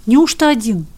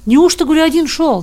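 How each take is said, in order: First: A touch of surprise; mild disbelief. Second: Louder, higher repeated question; insistent questioning. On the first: Watchman's first, surprised question. (с лёгким удивлением) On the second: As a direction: press him for an answer. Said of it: "допытывался сторож". (громко допытываясь) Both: A narrator's reading.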